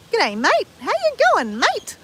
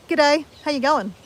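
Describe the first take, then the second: First: Exaggerated Ocker Australian accent, pitched much higher; broad Ocker Australian accent. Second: Her everyday Australian "G'day, how you going", easy and unforced; normal Australian. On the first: Showing viewers an over-the-top Ocker Australian accent. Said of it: "That's not my normal accent". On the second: Showing her everyday Australian greeting, relaxed. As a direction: say "G'day" the way she normally would. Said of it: "if I was gonna say that normally". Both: Shown as a demonstration.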